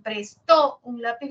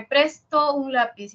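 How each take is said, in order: First: "prestó, un lápiz" with TÓ stressed and louder; stress on last syllable. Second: "presto, un lápiz" with PRES stressed and drawn out; stress on first syllable. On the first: Teacher contrasts accent for students, last-syllable stress. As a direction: hit the final TÓ in "prestó", slowly. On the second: Teacher contrasts accent for students, first-syllable stress. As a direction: hit PRES in "presto", slowly. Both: Shown as a demonstration. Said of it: "la diferencia está en el acento".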